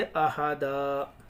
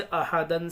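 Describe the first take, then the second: First: अहादा ending on a long "daa"; अहादा drawn out open at the end; pausal alif ending. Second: अहादन ending on a short "-dan"; अहादन with nasal n closing it; tanween ending. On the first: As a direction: stretch the last vowel of अहादा, no n. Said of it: "एक ज़बर के साथ अलिफ पढ़ा जाता है". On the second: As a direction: sound the final n of अहादन. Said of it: "दो ज़बर पर वक्फ करना हो". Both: Shown as a demonstration.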